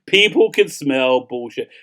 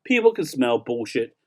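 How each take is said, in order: First: Slow, every word weighted on "people can smell bullshit"; slow emphatic. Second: Said in the usual way. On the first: Shown as a demonstration. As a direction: lean slowly on "people" and "bullshit". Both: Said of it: "that's the really".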